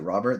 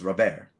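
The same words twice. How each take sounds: First: The name is pronounced the English way. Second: The name is pronounced the Spanish way. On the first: This is how many announcers say it. The speaker calls it wrong. "any announcer who calls it Robert, they're doing it wrong" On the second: This is how the player himself says it. The speaker calls it right. "He's Cuban. That's how you pronounce the name"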